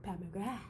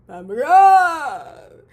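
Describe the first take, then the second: First: Said in the usual way. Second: Pat McGrath shouted high and hugely louder; excited shout. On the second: Real, not acted. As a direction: scream the name like a starstruck fan.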